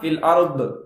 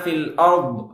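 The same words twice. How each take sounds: First: The final consonant ends with an echoing bounce. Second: The final consonant stops cleanly without echo. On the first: The speaker calls it wrong. "ضாதயை கல்கலா செய்வாங்க. தப்பு" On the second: The speaker calls it right. "அப்படின்னு சொல்லி தான் வரணுமே"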